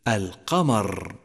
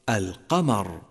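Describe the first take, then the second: First: The r sound is doubled into two. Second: The r sound is a single light one. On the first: The speaker calls it wrong. "الذي يجعل من الراء المخففة حرفين" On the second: The speaker calls it right. "والصواب أن يقول القارئ"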